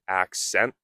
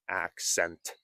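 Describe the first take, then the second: First: The T is soft or nearly silent. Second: The T is pronounced clearly. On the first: "it is a bit of a silent T, or perhaps they call it a flap T" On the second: "and not accent"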